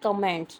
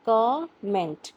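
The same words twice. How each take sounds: First: The stress is on the second syllable. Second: The stress is on the first syllable. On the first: The speaker calls it wrong. "ये word हम बोलते हैं" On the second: The speaker calls it right. "जो का है ना उस पे हम थोड़ा सा प्रेशर लगाएंगे"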